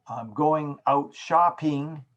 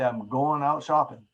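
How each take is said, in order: First: Slow "going" and "shopping" with complete -ing endings; full enunciation. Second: Quick "goin'" and "shoppin'", final g's gone; dropped endings. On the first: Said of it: "saying the whole word". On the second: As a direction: clip "going" and "shopping" to -in endings. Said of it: "words without saying the whole word". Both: Shown as a demonstration.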